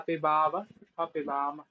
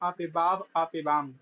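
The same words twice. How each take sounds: First: The final v and m carry a vowel. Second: The final v and m have no vowel. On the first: The speaker calls it right. "ऐसे बोलना पड़ेगा" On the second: The speaker calls it wrong. "आप वकार को और मकार को हलन कर देते हो"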